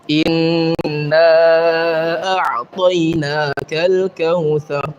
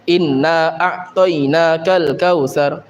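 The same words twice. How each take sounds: First: The nasal n sound is held longer. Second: The nasal n sound is cut short. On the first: The speaker calls it right. "Harusnya gimana? Ditahan" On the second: The speaker calls it wrong. "meniadakan gunnah"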